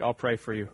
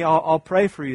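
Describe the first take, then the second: First: It sounds like a dismissive brush-off. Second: It sounds heartfelt and sincere.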